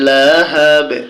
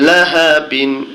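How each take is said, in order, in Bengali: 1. শব্দটি খালি b ধ্বনি দিয়ে শেষ হয়। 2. শব্দটি -in ধ্বনি দিয়ে শেষ হয়। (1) "এখানে যখন থামবো আমরা তখন উচ্চারণটা হবে লাহাবে" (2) "বা দুই জের বিন"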